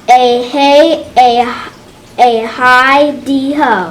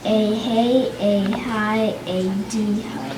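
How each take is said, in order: First: It is read in a lively, excited way. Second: It is read in a flat, bored way.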